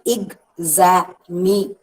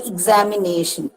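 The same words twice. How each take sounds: First: "Examination" slowly as ex, a, mi, na, tion; syllable by syllable. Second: Said in the usual way. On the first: Shown as a demonstration. Teacher showing five syllables to students, syllable by syllable. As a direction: break "Examination" into five separated beats. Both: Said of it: "Five syllables are there".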